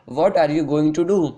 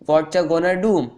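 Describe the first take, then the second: First: Every word is said fully and separately. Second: The words are blended into shortened slang forms. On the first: "आप इसको बोलते होंगे" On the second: "बहुत ही smart way में बोल सकते हैं"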